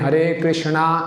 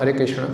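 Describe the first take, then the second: First: The second word ends with a long 'aa' vowel. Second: The second word ends without a long vowel. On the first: The speaker calls it wrong. "हमने हरे कृष्णा ऐसे नहीं बोलना" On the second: The speaker calls it right. "दैट"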